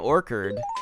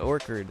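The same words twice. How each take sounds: First: The word is pronounced in an odd way. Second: The word is pronounced in the usual way. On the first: The speaker calls it wrong. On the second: The speaker calls it right.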